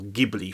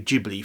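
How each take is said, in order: First: Ghibli is said like the original wind name. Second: Ghibli is said the speaker's usual, anglicized way. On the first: The speaker calls it right. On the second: The speaker calls it wrong.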